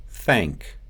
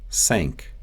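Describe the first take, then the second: First: Said in the usual way. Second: "Thank" said as sank; Russian S for TH in "Thank"; Russian accent. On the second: Shown as a demonstration. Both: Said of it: "The T H sound".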